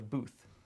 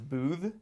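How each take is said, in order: First: The final th is voiceless, without voice buzz. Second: The final th is voiced, with voice buzz. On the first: "the th in booth, as we pronounce it, is non-voiced" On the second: "he used the voiced th sound, which is booth"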